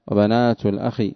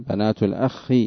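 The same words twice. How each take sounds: First: Said in the usual way. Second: "الأخ" with a held, doubled خ; doubled kha. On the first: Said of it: "بتشديد الخاء من الأخ". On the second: Shown as a demonstration. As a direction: lengthen the خ in "الأخ" as a geminate. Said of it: "تشديد ال-، الخاء".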